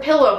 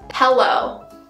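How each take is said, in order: First: It is said with a standard pronunciation. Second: It is said with a local Utah pronunciation. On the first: This is the speaker's own pronunciation. "I say the word pillow" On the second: This is how many local people say it. "a lot of people say pillow"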